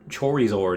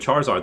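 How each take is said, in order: First: The first syllable sounds like 'core'. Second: The first syllable sounds like 'car'.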